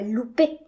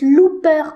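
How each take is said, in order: First: The name ends with an 'ay' sound. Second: The name ends with an 'er' sound. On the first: The speaker calls it wrong. "pas Loupé" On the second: The speaker calls it right. "ça se prononce Looper"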